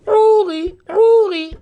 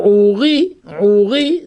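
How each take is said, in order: First: "Ouri" with high, punched "Ou"; stress on the first syllable. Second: "Ouri" slow, weight on final "ri"; stress on the last syllable. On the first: Teacher contrasts the two accents, "Ouri" stressed on "Ou". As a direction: throw the weight onto "Ou" in "Ouri". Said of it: "Ça s'appelle Mil'il". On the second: Teacher contrasts the two accents, "Ouri" stressed on "ri". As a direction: lean into the "ri" of "Ouri". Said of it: "l'accent tonique est mis sur la deuxième syllabe". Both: Shown as a demonstration.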